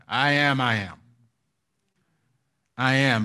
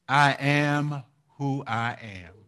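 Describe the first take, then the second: First: "I am" repeated with broken pauses between; halting repeated words; stuttering repeat. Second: Said in the usual way. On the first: Shown as a demonstration. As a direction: let "I am, I am" stumble like a stutter. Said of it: "it sounds like he's stuttering". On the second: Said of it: "when you interpret it, he says".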